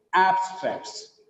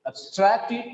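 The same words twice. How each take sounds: First: "abstracts" as AB-stracts, falling; full strong AB in "abstracts"; stressed first syllable. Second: "abstracted" as ub-STRACT-ed, higher, rising; weak ub, strong STRACT in "abstracted"; unstressed first syllable. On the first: Teacher contrasting noun with verb, stressed AB in "abstracts". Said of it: "when it has got the stress". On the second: Teacher contrasting verb with noun, weak ab in "abstracted". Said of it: "there is no stress on A B". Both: Shown as a demonstration.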